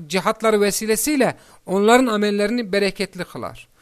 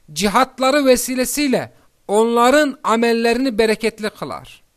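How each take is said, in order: No difference in how they are said.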